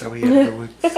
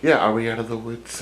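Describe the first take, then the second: First: Much higher, frightened little question; squeaky scared voice. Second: Said in the usual way. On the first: Acted. Voicing the babysitter in the woods, high and scared. Repeating the line in different voices.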